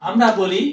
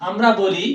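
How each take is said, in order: No difference in how they are said.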